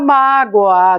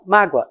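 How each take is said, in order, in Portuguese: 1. A segunda vogal soa como O. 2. A segunda vogal soa como U. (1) "Ninguém diz" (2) "O que vale U"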